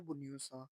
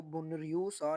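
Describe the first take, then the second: First: बुन्यो सा with the r dropped and the n running into यो; correct reading. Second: बुनरियू सा with the n and r both sounded, as the mistake; wrong reading. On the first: Teacher gives the correct Korean reading, quiet and clear. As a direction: say बुन्यो सा smoothly, n gliding into yo. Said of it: "इसको पढ़ना है बुन्यो सा". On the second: Teacher shows how not to read the Korean word. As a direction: spell out बुनरियू सा letter by letter, the wrong way. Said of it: "बुनरियू सा नहीं पढ़ना". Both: Shown as a demonstration.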